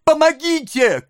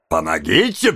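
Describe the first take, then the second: First: Put-on very high child's scream for help; desperate cry. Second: Low, jeering echo; mocking repeat. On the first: Oliver struggling in mighty hands, desperate cry. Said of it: "крикнул Оливер". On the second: Man echoing the boy's plea, mocking. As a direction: throw the plea back in a low voice. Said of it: "повторил человек". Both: A narrator's reading.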